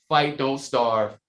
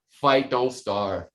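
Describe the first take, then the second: The two takes are said the same way.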